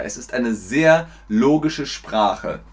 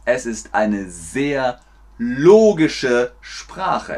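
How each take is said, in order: First: Said in the usual way. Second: Slow, spaced words with stretched "logische"; slow teacher delivery. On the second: Shown as a demonstration. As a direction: spell out the claim slowly for learners. Langsam für Lernende vorgesprochen. (langsam und deutlich für Lernende)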